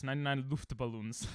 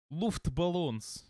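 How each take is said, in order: First: Said in the usual way. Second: Mock Russian accent. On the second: Streamer joking about the German song, mock Russian accent. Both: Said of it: "I don't know why I did a Russian accent".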